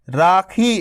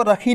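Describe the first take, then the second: First: राखी with a long first रा; long aa in raakhi. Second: रखी said with a short first a; the mistaken रखी; short a, wrong. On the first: Teacher modelling the long aa in राखी. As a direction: say राखी, not रखी. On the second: Teacher showing the wrong short रखी. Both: Shown as a demonstration. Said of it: "आपको रखी नहीं पढ़ना".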